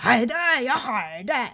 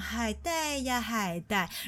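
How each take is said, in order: First: It is said in a Sichuan accent. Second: It is said gently in a Shanghai accent. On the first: "如果是来自四川的妈妈呢" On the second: "来自上海的女生妈妈，就是她连说海带呀海带都是非常的温柔的"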